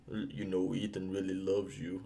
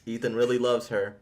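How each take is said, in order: First: Low, soft, mock-depressed delivery; Luther. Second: Said in the usual way. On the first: Mocking Luther's sad line to Ethan's love, low and subdued. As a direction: imitate a glum line reading, hushed and downcast. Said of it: "all sad and depressing". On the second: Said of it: "I'm like".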